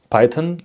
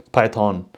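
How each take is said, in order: First: Python with a quick, reduced "-tən" ending; weak-vowel variant. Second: Python with a drawn-out "-tawn" ending; full-vowel variant. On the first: Presenter quotes what some people say, Python with a short weak ending. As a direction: say Python with a schwa in the second syllable. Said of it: "some people say Python". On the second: Presenter quotes what other people say, Python with a full "-tawn" ending. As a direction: say Python with a clear open "on" at the end. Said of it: "and some people say". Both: Shown as a demonstration.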